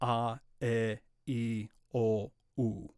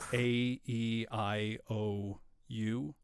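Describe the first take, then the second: First: Each vowel is said as a pure, steady vowel. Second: Each vowel is said like an English letter name. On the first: The speaker calls it right. "Think of all of the vowels as being pure Latin vowels" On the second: The speaker calls it wrong. "instead of"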